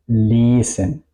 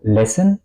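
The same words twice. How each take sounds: First: Lesen with a long, held "ee"-like first vowel. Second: Lesen mispronounced with a short E, like "lessen"; wrong short vowel. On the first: Teacher says how it should be, long vowel. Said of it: "La I suena muy larga". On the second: Teacher shows what not to say, short vowel. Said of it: "Yo no digo lesen". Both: Shown as a demonstration.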